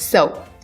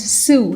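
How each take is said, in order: First: The vowel sounds like the one in 'go'. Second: The vowel sounds like the one in 'too'. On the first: The speaker calls it right. "It's so" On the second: The speaker calls it wrong. "Many people assume it's Sue. It's not Sue"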